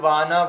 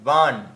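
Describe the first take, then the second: First: The word ends with an added vowel sound. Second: The word ends on a bare consonant. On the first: The speaker calls it wrong. "বললে হবে না" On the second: The speaker calls it right. "ওখানে নয়ে হলন্ত রয়েছে"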